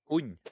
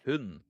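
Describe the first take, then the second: First: Said in a local accent, final D barely heard. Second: Said in another accent, final D clearly heard. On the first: "I said it in my local accent"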